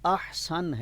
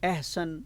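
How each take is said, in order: First: The word begins with an open 'a' vowel. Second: The word begins with an 'e' vowel. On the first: The speaker calls it right. "अहसन है" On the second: The speaker calls it wrong. "एहसन भी गलत है"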